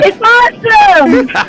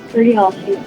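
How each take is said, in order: First: It is said with lively enthusiasm. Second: It is said flatly, with little energy.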